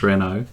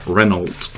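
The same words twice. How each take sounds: First: The name gets a French-style pronunciation. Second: The name gets an English-style pronunciation. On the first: "we tend to pronounce the, the French way as Renault" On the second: "it was advertised with the pronunciation of Renault"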